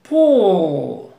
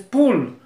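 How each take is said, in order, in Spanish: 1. La L final es larga y jalada hacia atrás. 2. La L final es corta y clara. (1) "La L la largas y la jalas hacia atrás" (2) "Si dices pull, reel, steel, whale, no"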